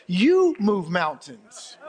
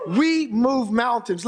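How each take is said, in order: First: "You" shouted, then "move mountains" slow and falling; stress on YOU. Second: Said in the usual way. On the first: Real, not acted. Preacher turning the claim on his congregation, stress on "You". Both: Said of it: "Let me say it this way".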